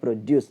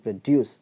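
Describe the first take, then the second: First: The stress is on the first syllable. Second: The stress is on the second syllable. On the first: It is a noun meaning farm produce. "ആദ്യത്തെ നൗണാണ്, അതിൻ്റെ അർത്ഥം കാർഷിക വിളകൾ" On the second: It is a verb meaning to make. "രണ്ടാമത്തെ സിലബിളുടെ തുടക്കത്തിൽ produce അവിടെ stress വന്നാൽ"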